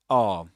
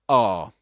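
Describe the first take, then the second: The two takes are said the same way.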